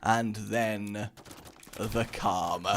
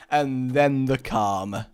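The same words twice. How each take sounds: First: And then the calm dropped softer and lower; whispering the calm after the blast; hushed repeat. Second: And then the calm said slow, calm stretched; describing the fireworks settling; slow build to calm. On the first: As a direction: let it fade to a hush. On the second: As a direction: ease into the calm slowly. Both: Shown as a demonstration.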